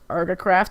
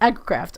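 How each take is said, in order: First: The word begins with an 'ar' sound. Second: The word begins with an 'ag' sound. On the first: The speaker calls it wrong. "just assumed it was Argacraft or like, but I, I knew it wasn't because it sounded wrong" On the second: The speaker calls it right. "I now know how to pronounce that properly"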